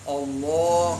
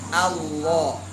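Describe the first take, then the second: First: The first vowel is dark and heavy. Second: The first vowel is bright and thin. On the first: The speaker calls it wrong. "jangan Allah, Allah, salah" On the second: The speaker calls it right. "Tapi A, Allah, jangan terbawa tebal"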